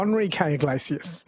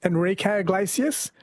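First: "Enrique" starting like "on"; ON pronunciation. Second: "Enrique" starting with EN; EN pronunciation. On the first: Host testing the rule on a singer, ON-rique. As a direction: say "Enrique" as On-REE-kay. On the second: Host testing the rule on a singer, EN-rique. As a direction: say "Enrique" as En-REE-kay. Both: Shown as a demonstration. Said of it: "Do you say".

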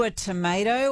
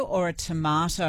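First: First TOMATO said "tuh-MAY-toh"; American tomato. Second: Second TOMATO said "tuh-MAH-toh"; long-A tomato. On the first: Host asking an American-accented colleague, AY-sound TOMATO. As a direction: say TOMATO with AY in the middle. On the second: Host offering the colleague the other choice, AH-sound TOMATO. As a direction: say TOMATO with AH in the middle. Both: Shown as a demonstration. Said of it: "Are you a tomato or a tomato".

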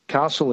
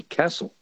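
First: "castle" with the long a of "father"; New South Wales "castle", broad ah vowel; Queensland pronunciation. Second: "castle" with the short flat a of "cat"; Victorian pronunciation. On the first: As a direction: say "castle" as KAH-sul. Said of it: "Castle in Queensland and New South Wales is castle". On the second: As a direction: say "castle" as KASS-ul. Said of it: "but in Victoria it's largely castle". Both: Shown as a demonstration.

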